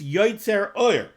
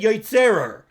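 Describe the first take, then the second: First: The two words are kept apart. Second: The two words blur into one word. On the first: The speaker calls it right. "you have to take a pause between the word yoitzer and the word or" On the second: The speaker calls it wrong. "Yotzerer is not a word"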